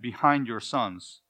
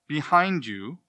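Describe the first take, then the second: First: "behind" stressed, said slowly with a falling close. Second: "behind" stressed, the tune rising at the end. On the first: Preacher marks the second duplicate phrase, slow and falling. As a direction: settle "behind your sons" slowly downward as the second of the pair. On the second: Preacher marks the first duplicate phrase, stressing "behind". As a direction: lift "behind you" upward as the first of the pair. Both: Shown as a demonstration. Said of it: "The Hebrew has two du-, duplicate phrases".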